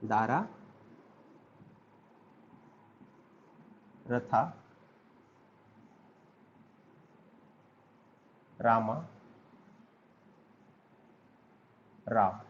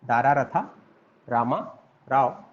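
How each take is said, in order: First: दारा, रथा, रामा, राव each said alone, softer, with long pauses while writing; word by word. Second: Said in the usual way. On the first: Shown as a demonstration. Teacher writing the name on the board, saying each word apart. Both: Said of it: "मैं फिर से इसको लिख दे रहा हूँ".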